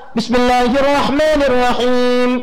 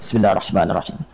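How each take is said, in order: First: It is recited aloud, clearly audible. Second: It is recited quietly, almost silently.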